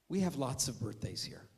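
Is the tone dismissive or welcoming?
dismissive. It is said in a dismissive, indifferent tone.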